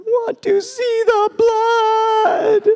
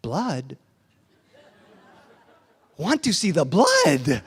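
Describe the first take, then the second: First: Very high, loud, drawn-out wail; hammed-up bawling toddler, stretched way out; crying child. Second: Put-on slow, suddenly fascinated child; no longer crying. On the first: Son who fell and didn't bleed, wailing in disappointment. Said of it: "he started crying". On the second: Son just told his chin bleeds, tears stopped, intrigued. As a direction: stop the tears and ask with slow wonder. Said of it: "He stopped crying and said".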